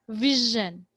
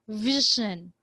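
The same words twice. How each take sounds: No difference in how they are said.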